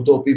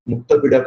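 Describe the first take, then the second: First: The name drops the k and ends in -topi. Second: The name has a k and ends in -pida. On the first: This is how foreign record-keepers rendered the name. "उन लोगों ने मुतोपी बना दिया" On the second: This is the original form of the name. "they were not able to pronounce"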